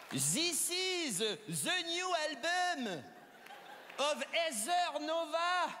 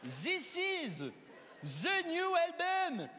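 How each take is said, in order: First: Put-on slow, laboured English with a heavy French accent; a French person trying English. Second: "This" said as zis, "the" as zə, slow and drawn out; mock French th as z; zis instead of this. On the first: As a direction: sound out each English word in a thick French accent. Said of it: "pour parler anglais". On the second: Shown as a demonstration. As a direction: hammer the z in "This is the new album". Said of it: "le plus proche du son The".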